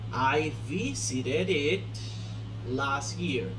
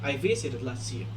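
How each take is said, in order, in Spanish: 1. La palabra 'it' después de 'visited' se pronuncia claramente. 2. La palabra 'it' después de 'visited' se omite. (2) "Es así como lo acomodan"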